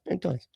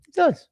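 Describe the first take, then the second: First: Soft echo. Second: "It does." shot way up high and louder; squeaky high agreement. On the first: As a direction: let "It does." drop back, soft and quiet. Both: Real, not acted. Agrees with the chat twice.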